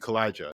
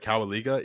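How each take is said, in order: First: The name sounds like 'Kalijah'. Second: The name sounds like 'Cowaliga'. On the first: The speaker calls it right. "it's actually Kalijah" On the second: The speaker calls it wrong. "I made a grave mistake ... I called it Cowaliga. It is not Cowaliga"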